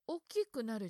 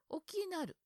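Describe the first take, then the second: First: The middle syllable 'ku' is pronounced in full. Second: The middle syllable 'ku' is left out. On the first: This is the standard form. The speaker calls it wrong. "大きくなるじゃなくて" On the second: This is the Wakayama dialect form. The speaker calls it right. "大きなる。になるんでしょうね"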